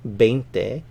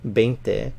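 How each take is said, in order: Both takes have the same delivery.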